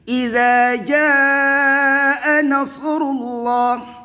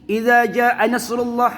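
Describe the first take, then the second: First: The vowel in jaa is held long. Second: The vowel in jaa is cut short. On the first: The speaker calls it right. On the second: The speaker calls it wrong. "Jangan gini"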